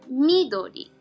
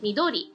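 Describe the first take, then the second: First: Standard Japanese, accent on the first syllable. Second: Hiroshima dialect, accent on the middle syllable.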